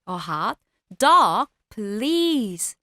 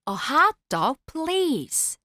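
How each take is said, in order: First: The stress is on dog. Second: The stress is on hot.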